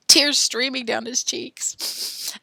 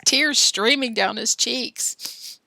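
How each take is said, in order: First: Mock tearful. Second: Said in the usual way. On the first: Shown as a demonstration. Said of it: "Where are my tears?".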